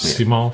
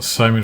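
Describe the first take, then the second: First: The name is said with French pronunciation. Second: The name is said with English pronunciation. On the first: "for the French viewers" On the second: "for the English viewers"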